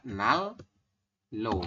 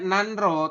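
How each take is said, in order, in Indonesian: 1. Bunyi n-nya berubah jadi l. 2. Dibacanya dengan n sebelum r. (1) "tapi kita bacanya adalah Nal Lo" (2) "Tulisannya Nanro"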